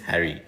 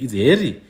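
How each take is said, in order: First: The name is said like the English name Harry. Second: The name is said with its local, non-English sound. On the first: This is the name as outsiders wrote and said it. The speaker calls it wrong. "like Prince Harry" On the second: This is the name as his own people say it. The speaker calls it right. "That's his proper name"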